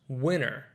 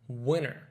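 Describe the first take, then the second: First: The T sound is dropped after the N. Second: The same.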